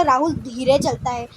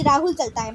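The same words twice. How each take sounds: First: धीरे drawn out as the key added word; stress on धीरे. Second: Said in the usual way. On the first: Shown as a demonstration. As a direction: lean on धीरे, stretching its first vowel. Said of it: "मैंने बोला राहुल धीरे चलता है". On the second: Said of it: "वैसे भी तो बोल सकते थे".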